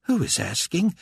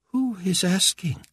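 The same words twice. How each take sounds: First: Higher, rising impatient question; sharper demand. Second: Higher, slow imperious question; imperious demand. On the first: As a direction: ask again, impatient. Carpathia repeats angrily. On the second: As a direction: demand it slowly, high. Carpathia demands. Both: A narrator's reading.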